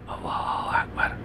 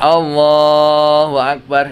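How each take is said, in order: First: The phrase is said softly. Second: The phrase is said loudly. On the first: Only the speaker himself needs to hear it. "tapi kalau pelan" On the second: It gives a command that everyone must hear. "imamnya keras"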